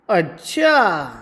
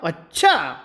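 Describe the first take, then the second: First: अच्छा in a changed, drawn-out voice; different tone. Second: अच्छा in yet another altered voice. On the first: Teacher showing a second tone of अच्छा with a changed voice. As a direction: say अच्छा with a new tune that shifts its meaning. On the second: Teacher showing a third tone of अच्छा to the class. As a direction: give अच्छा a third tune, clearly unlike the last. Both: Shown as a demonstration. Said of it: "ऐसे भी बोल सकता है".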